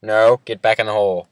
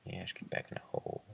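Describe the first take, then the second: First: Loud, firm order; firm command. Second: Fast unvoiced whisper. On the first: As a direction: bark him back into the hole. Ordering friend back into hole. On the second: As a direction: hiss the order fast under breath. Same order repeated. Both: Real, not acted.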